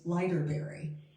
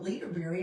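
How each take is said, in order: First: The first syllable sounds like 'lighter'. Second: The first syllable sounds like 'leader'. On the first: The speaker calls it right. "it's Lighterberry" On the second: The speaker calls it wrong. "So I was calling it Leaderberry"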